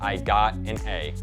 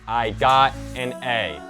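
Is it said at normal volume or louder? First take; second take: normal; louder. First: It is said at normal volume. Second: It is said louder.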